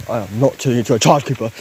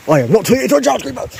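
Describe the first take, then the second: First: Said in the usual way. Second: Fast, high-pitched outburst; rising, hurried protest; agitated protest. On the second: Real, not acted. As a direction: refuse it rapidly, voice climbing high. Same refusal escalated in protest.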